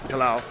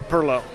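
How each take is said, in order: First: The word is said like 'pilau'. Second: The word is said like 'perlo'. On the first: This is how outsiders say it. The speaker calls it wrong. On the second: This is how locals in the town say it. The speaker calls it right.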